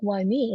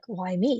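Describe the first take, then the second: First: It sounds negative, like self-pitying complaint. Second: It sounds positive, like curious wonder.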